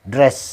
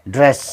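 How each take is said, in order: The two takes are said the same way.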